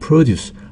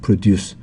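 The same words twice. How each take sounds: First: The stress is on the first syllable. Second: The stress is on the second syllable. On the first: It is a noun meaning farm produce. "강세 앞에 갈 때는 농산물" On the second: It is a verb meaning to make. "강세가 뒤에 있을 때는 어, 만들다, 생산하다고요"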